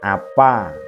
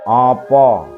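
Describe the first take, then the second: First: The vowels are light and open, like plain a. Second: The vowels are heavy, with the tongue pulled back. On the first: The speaker calls it wrong. "Bukan apa ... Itu dialek Banyumasan" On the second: The speaker calls it right. "A bulat, itu ada contoh kata opo"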